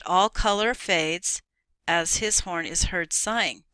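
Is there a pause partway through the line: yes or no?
yes. It is read with a pause partway through.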